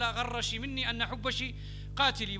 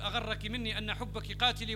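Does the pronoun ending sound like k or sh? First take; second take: sh; k. First: The pronoun endings are said with a sh sound. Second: The pronoun endings are said with a k sound. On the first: This is the poet's own dialect form. "لو كتب بلهجته وبلغته لقال" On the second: This is the standard Quraysh form. "بدل أن يقول"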